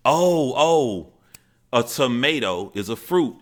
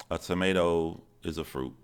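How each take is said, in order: First: High, loud acted-out blurt; eager child. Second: Plain, understated recital with head down; lightly acted shy child, not wanting to talk; scared, reluctant child. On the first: Confused boy blurting his fact to grandmother and aunts, eagerly. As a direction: imitate a kid bursting to answer. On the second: Scared boy reciting his fact to an adult, mildly reluctant. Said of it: "And I'm scared".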